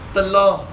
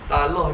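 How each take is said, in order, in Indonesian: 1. Vokal pertama adalah schwa lemah. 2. Vokal pertama adalah 'a' terbuka. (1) "Dia kena telah" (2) "Talah kita tu salah pada baca eh"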